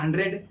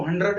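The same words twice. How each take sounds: First: "हंड्रेड" with a clear E, hun-dred; another mispronunciation of hundred. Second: "हंड्रेड" with a dull last vowel, hun-drud; common mispronunciation of hundred. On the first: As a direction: say "हंड्रेड" with a spelled-out RED ending. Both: Retold or imitated. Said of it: "लोग गलत बोलते हैं इसको".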